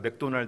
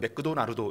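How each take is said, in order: First: It is said in a Korean accent. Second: It is said in a Japanese accent. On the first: "우리가 맥도날드 하는데" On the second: "일본 사람 맥도나르도 이렇게 하거든요"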